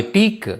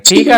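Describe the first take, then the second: First: టీక్ cut short on a bare k; cut-off ending. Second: టీకా with a full "aa" vowel after the k; wrong full ending. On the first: Teacher corrects the student's word, టీక్ ending on a bare k. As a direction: stop టీక్ at the k, no vowel after it. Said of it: "దీన్ని cut చేసి పలకాలన్నమాట". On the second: Teacher shows the student the mistake, టీకా with an added final aa. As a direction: say టీకా with the last consonant fully voweled. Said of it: "టీకా కాదు ఇది". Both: Shown as a demonstration.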